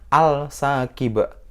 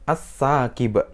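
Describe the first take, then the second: First: The L sound is pronounced before the S. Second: The L merges into a doubled S sound. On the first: The speaker calls it wrong. "al-sakiba itu salah" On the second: The speaker calls it right. "Yang betul gimana? As-sakiba"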